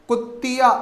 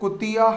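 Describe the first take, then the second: First: The t sound is doubled. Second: The t sound is single. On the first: The speaker calls it wrong. "कुत्तिया ने होकर" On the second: The speaker calls it right. "कुतिया होगा"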